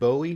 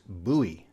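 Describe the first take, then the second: First: It sounds like the singer's surname. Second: It does not sound like the singer's surname. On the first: The speaker calls it wrong. "you might think it's like the singer [name]" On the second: The speaker calls it right. "if you're in Maryland or Texas, you know that it's Bowie"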